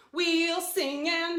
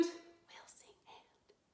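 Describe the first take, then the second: First: Sung high and slow as the lead line. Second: Soft whispered echo of the line. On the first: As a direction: sing it for them to echo. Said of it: "you'll repeat it back to me". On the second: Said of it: "like an echo". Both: Shown as a demonstration.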